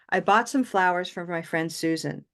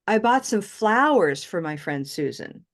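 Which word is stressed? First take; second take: Susan; flowers. First: The strongest stress falls on Susan. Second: The strongest stress falls on flowers. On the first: It is stated as a plain neutral fact. "Susan, right? So she's going to get the most stress if I just say it as a fact" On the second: It clarifies what was bought. "Or what did you buy for Susan?"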